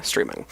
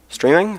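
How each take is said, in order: First: "Streaming" dropped very low and softer; confirming. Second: "Streaming" pitched high with a rising end; questioning. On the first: Streamer answering own question, "Streaming" low and soft. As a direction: let "Streaming" sink to a low, quiet statement. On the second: Streamer querying the word just said, "Streaming" high and rising. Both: Real, not acted.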